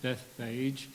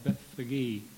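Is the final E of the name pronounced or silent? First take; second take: silent; pronounced. First: The final E of the name is silent. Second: The final E of the name is pronounced. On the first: "I've always called it Bethphage" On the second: "in the Greek, the E at the end is pronounced"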